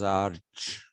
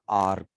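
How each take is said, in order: First: The word ends with a ch sound. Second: The word ends with a k sound. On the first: This is not how the ancient Greeks said it. "The Greeks did not pronounce this as arch" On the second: This is how the ancient Greeks said it. "They pronounced this as ark"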